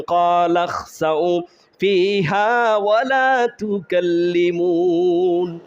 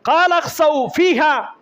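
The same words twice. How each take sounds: First: Very slow melodic chant; sung, draw out every long vowel; sung, Quran recitation. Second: High, emphatic spoken verse; forceful declaiming. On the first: Preacher recites Allah's final answer, slow chant. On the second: Preacher repeats Allah's dismissal to explain it, high forceful declaiming. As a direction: punch each word, no melody. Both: Acted.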